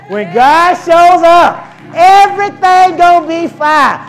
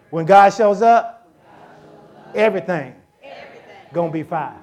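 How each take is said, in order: First: Much louder and higher, slow and ringing; full-force preaching. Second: Said in the usual way. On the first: Acted. Preacher repeats to congregation, roaring. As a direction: bellow the promise to the church. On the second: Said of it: "Look at your neighbor and say".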